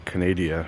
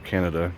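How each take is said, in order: First: It is said with a non-Canadian accent. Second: It is said with a Canadian accent.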